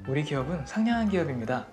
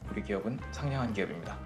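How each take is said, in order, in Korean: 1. 상냥하고 높은 톤으로 말했어요. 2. 낮고 딱딱한 톤으로 말했어요. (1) "상냥하게 해주세요" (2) "톤을 낮춰서"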